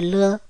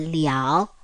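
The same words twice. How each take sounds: First: It is said as the short toneless syllable le. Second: It is said as the full syllable liao. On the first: The speaker calls it wrong. "它不是了" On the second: The speaker calls it right. "它是了"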